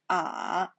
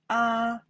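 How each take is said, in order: First: The pitch dips low then rises. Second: The pitch stays high and level. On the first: "The third time" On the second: "The first time"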